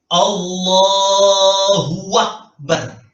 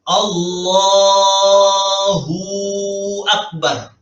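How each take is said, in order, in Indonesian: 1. Ada suku kata 'wa' tambahan yang menghubungkan Allahu dan Akbar. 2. Huruf u pada Allahu dipanjangkan sebelum Akbar. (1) "Nambahi wawu berharokat" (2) "Itu berarti menambahi wawu sukun"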